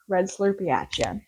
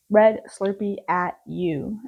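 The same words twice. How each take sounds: First: "at ya" run together casually, "ya" unstressed. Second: Slow, careful "you" with a full oo; enunciated "you". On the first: Recapping the red Slurpee striking back, "ya" said casually as "yuh". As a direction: say "ya" as a loose, reduced "yuh". Casual take, then corrected to "you. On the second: Redoing the red Slurpee line, "you" slowly and fully pronounced. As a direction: spell out "at you" word by word, slowly. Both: Shown as a demonstration.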